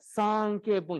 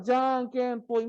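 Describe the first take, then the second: First: The word begins with an S sound. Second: The word begins with a J sound. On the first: This is how Kiribati speakers say it. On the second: This is the Japanese original.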